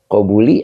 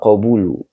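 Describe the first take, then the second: First: The word ends with an "i" vowel. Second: The word ends with a "u" vowel. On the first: The speaker calls it wrong. "keluarnya kasroh" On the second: The speaker calls it right. "yang benar adalah wakobulu"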